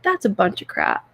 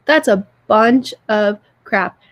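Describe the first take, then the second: First: Said in the usual way. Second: Slow, weighty stress on "bunch of crap"; emphatic repeat. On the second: Real, not acted. Telling a sick friend what bad friends deserve, slow and emphatic. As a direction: draw out "bunch" and "crap", each word set apart.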